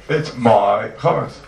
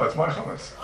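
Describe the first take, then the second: First: "my" stretched out long and loud; slow right down and lean hard on "my"; stress on "my". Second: Said in the usual way. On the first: Real, not acted. Teacher arguing to students that he owns it, "my" heavily stressed. Repeats claim, hammering home ownership.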